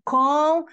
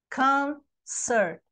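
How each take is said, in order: First: Concerte with a vowel added after the T, three syllables, higher and louder; mock the Brazilian habit of saying concerte; wrong extra vowel. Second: Concert said in two syllables, con-cert, ending on a bare T. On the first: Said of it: "tem gente que divide assim". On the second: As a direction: keep the T of concert with the second syllable, no extra vowel. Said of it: "são duas, não são três". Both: Shown as a demonstration.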